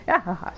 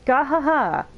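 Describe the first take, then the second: First: A small sheepish "Gahaha"; subdued laugh. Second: High, loud hammed-up gahaha laugh "Gahaha"; hearty mock laugh. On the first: Acted. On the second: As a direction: belt out "Gahaha" like a boastful hero. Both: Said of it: "No, sorry".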